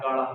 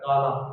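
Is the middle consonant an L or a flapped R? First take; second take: flapped r; l. First: The middle consonant is a flapped R. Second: The middle consonant is a clear L. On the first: This is how a Haryanvi speaker says it. "Haryanvi में कैसे कहते हैं? ये लड़का कह रहा है काड़ा" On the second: This is the standard way of saying it. "अपन जैसे बोले"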